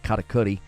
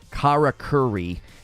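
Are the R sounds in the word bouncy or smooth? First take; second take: bouncy; smooth. First: The R sounds are bounced, with a syncopated rhythm. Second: The R sounds are smooth, not bounced. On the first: The speaker calls it right. "You're supposed to kind of bounce off the R's. It's almost like syncopated" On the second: The speaker calls it wrong. "how most people are probably going to be saying it"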